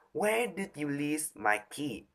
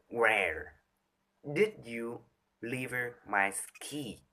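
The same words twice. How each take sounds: First: Where lifted higher; the key question pitched up; higher pitch take. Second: Low pitch take. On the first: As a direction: ask it on a raised pitch. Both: Shown as a demonstration. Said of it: "you can do just with pitch".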